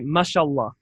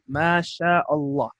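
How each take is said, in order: First: The vowel is clipped short and run together. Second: The vowel is drawn out with an open mouth. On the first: The speaker calls it wrong. "That's incorrect" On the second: The speaker calls it right. "Open your mouth and elongate"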